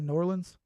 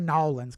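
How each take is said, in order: First: The city name is said the outsiders' way. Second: The city name is said the locals' way. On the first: This is how someone not from the city says it. "So I say New Orleans" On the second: This is how people from the city say it. "We don't say Nolans because I'm not actually from there"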